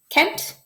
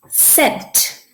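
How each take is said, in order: First: The word begins with a K sound. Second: The word begins with an S sound. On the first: The speaker calls it wrong. "if we put the K sound" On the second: The speaker calls it right. "I'm going to try it with the S sound first"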